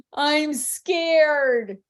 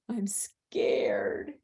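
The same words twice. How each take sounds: First: Louder, higher playful scare; hammed-up fear, drawn out; emphatic pretend fright. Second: Whispered pretend fear; hushed play-scared whisper; mock frightened whisper. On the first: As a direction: act scared big for a small child. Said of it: "she's a little emphatic". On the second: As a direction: whisper it as if hiding from a monster. Mom acts scared, replayed.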